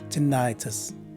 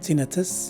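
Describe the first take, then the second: First: The stress is on the second syllable. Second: The stress is on the first syllable. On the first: "it's in the second syllable for the second one" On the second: "It's in the first syllable for the first one"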